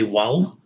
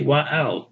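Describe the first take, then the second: First: The two words run together as one syllable. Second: The two words are said as separate parts. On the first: The speaker calls it right. "So we say wow" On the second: The speaker calls it wrong. "We don't say wa owl"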